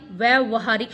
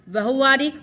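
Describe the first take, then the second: First: व्यवहारिक as vyai-va-haa-rik; each syllable clear in व्यवहारिक; correct form. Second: व्यवहारिक as va-ho-vaa-rik; wrong form. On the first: (सही उच्चारण, व्यवहारिक) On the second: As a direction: slur the first syllable of व्यवहारिक. (गलत उच्चारण, व्यवहारिक) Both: Shown as a demonstration. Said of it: "व्यवहारिक शुद्ध शब्द है".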